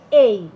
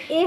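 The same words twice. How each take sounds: First: এই louder, gliding from e into i; drawn-out "ey" for এই; corrected letter A. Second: এ as one pure vowel; plain single-vowel এ; wrong A, unglided. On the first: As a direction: punch out এই as two joined vowels. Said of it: "এটা হবে এই". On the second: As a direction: say এ short, no glide. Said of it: "এ হবে না". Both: Shown as a demonstration.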